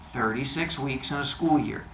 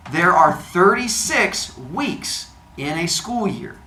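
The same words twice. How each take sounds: First: Said in the usual way. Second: "thirty-six weeks" drawn out slowly and higher; slow emphatic hint. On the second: Shown as a demonstration. Teacher giving the class a quiz hint, "thirty-six" slow and emphatic. Announced hint, said for note-taking.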